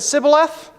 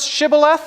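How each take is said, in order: First: The word begins with a plain 's' sound. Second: The word begins with a 'sh' sound. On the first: The speaker calls it wrong. "they said Sibboleth" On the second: The speaker calls it right. "they couldn't pronounce Shibboleth"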